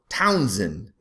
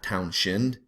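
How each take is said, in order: First: The middle consonant is a plain s sound. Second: The middle consonant is an sh sound. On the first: The speaker calls it right. "Townsend, not Townshend" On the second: The speaker calls it wrong. "Anybody wants to pronounce that H, for God's sakes"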